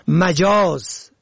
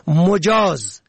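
First: مجاز said "majaaz"; fatha on first syllable. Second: مجاز said "mojaaz"; damma on first syllable. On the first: Presenter teaching the word for figurative, مجاز as "majaaz". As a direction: open مجاز with short a. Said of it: "به فتح اول". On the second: Presenter teaching the word for permitted, مجاز as "mojaaz". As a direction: open مجاز with short o. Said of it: "به ضم اول". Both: Shown as a demonstration.

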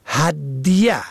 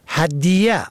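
First: هدیه said "had-ya"; sukun on second letter. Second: هدیه said "hadiyya"; doubled third letter. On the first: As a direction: say هدیه with no vowel after d. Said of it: "به فتح اول و سکون دوم". (هدیه با سکون دال: هَدْیه) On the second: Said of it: "کسر دوم و تشدید سوم". (هدیه با کسرهٔ دال و تشدید ی: هَدِیّه) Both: Shown as a demonstration.

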